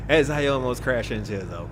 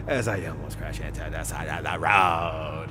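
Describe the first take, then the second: First: Said in the usual way. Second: Mock-dramatic low delivery; hammed-up low voice. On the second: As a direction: drop way down and stretch the last word. Exaggerated retake of the line.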